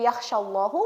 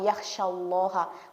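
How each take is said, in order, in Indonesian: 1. Kata ini berakhir dengan vokal 'u'. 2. Kata ini berakhir dengan vokal 'a'. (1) "Kalau kita membacanya yakhsyallahu berarti Allah yang takut" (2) "innama yakhsyallaha"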